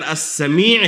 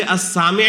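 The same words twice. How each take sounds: First: السمیع with long ee, as-Samee'; as-Sa-MEE', short first vowel; correct form. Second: السامع with long aa, as-Saami'; as-SAA-mi' as the altered name; disallowed form. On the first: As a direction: lean on the long "mee" of السمیع. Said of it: "تو اسے السامع بھی نہیں کر سکتے". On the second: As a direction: stretch "saa" and keep "mi" short in السامع. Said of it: "السامع بھی نہیں کر سکتے". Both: Shown as a demonstration.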